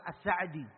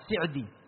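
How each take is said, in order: First: The vowel after the s is 'a'. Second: The vowel after the s is 'i'. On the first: The speaker calls it wrong. "dengan sin yang di fathah" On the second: The speaker calls it right. "Yang betul sesuai dengan apa yang beliau tulis dengan sin yang di kasrah"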